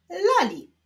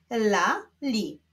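First: Said in the usual way. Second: "Lali" as two detached syllables; separate syllables. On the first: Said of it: "musimy połączyć ze sobą sylaby". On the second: Shown as a demonstration. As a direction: leave a clear gap inside "Lali". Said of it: "łączymy sylabę żółtą z sylabą niebieską".

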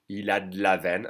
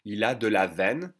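First: "il a d'la veine", quick and joined; de la veine said fast. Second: Said in the usual way. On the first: Shown as a demonstration. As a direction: swallow the E of de, D straight onto la. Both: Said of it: "Pronounce faster".

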